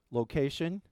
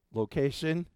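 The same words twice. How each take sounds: The two takes are said the same way.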